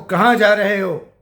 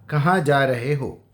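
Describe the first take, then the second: First: It is said in an angry, scolding tone. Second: It is said in a calm, neutral tone.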